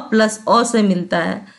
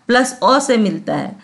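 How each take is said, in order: Both takes have the same delivery.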